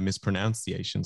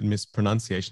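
First: The syllable after 'pro' sounds like 'noun'. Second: The syllable after 'pro' sounds like 'nun'. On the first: The speaker calls it wrong. "instead of mispronunciation" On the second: The speaker calls it right. "I'm glad that you did mispronunciation"

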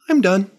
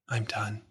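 First: The voice is relaxed, warm and calm. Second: The voice is flat, weak and defeated. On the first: The speaker feels safe and contentedly finished. "From safe and social, maybe it sounds like" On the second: The speaker has given up and shut down. "from shutdown, it might sound like"

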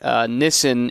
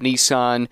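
First: It is said with a British pronunciation. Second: It is said with an American pronunciation. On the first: "you might hear them say Nissan" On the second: "instead of Nissan"

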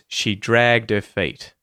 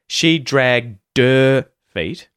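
First: The H in her is dropped and linked lightly. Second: The H in her is clearly pronounced. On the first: "It's very light, similar to a T flap" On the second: "instead of the"

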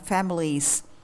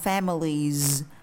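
First: The word ends with a hissing s sound. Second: The word ends with a buzzing z sound. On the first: The speaker calls it wrong. "chứ không đọc là families" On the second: The speaker calls it right. "chúng ta đọc là families"

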